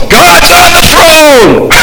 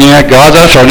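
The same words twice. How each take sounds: First: "God's on the throne!" shouted high and slow, with full conviction; high, drawn-out shout of faith; triumphant proclamation. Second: Casual throwaway "Yeah, God's on the throne"; shrugging, lukewarm saying; offhand, no conviction. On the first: Acted. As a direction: cry out "God's on the throne!" as a victory call. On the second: Retold or imitated. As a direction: toss off "God's on the throne" lazily, as if it means little. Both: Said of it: "No, it's".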